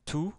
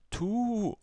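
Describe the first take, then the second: First: The vowel is short. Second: The vowel is long. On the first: "Avec la damma, ça nous donne tu" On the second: "La deuxième voyelle longue arabe, donc c'est waw"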